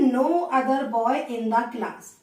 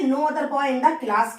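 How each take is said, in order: First: Very slow, each word apart; slow dictation. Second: Slow, words spaced out; slow dictation. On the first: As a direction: spell the phrase out for the class. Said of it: "teacher dictates phrase". (धीरे-धीरे शब्द-शब्द बोलना) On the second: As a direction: dictate it to the class. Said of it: "teacher dictates phrase again". (धीरे-धीरे बोलकर लिखवाना) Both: Shown as a demonstration.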